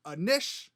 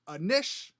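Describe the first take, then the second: First: The second syllable rhymes with dish. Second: The second syllable rhymes with dish.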